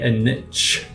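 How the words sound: Niche is said in an American way.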